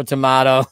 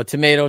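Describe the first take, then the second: First: "tomato" with a middle "MAH"; broad-A tomato. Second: "tomato" with a middle "MAY"; long-A tomato. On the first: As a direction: say "tomato" as tuh-MAH-toh. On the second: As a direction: say "tomato" as tuh-MAY-toh. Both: Shown as a demonstration. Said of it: "you said it one way".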